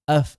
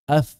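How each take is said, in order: The two takes are said the same way.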